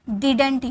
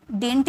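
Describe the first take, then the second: First: Didn't said in two syllables, did-unt; didn't spelled out as did-unt; full pronunciation. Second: Didn't said as one quick syllable, like dint; didn't as dint, no middle vowel; clipped pronunciation. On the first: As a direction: give didn't its middle vowel, did-ent. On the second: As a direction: squeeze didn't into a single short beat. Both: Shown as a demonstration. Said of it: "इसकी pronunciation दो होती है".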